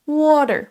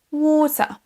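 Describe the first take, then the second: First: Water as wadder, American r ending; emphatic American water; American accent. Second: Higher British water with long aw; water as waw-tuh, British and r-less; drawn-out British water; British accent. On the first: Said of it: "avec l'accent américain". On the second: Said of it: "avec l'accent britannique". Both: Shown as a demonstration.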